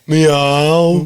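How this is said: It is said in a Brummie accent.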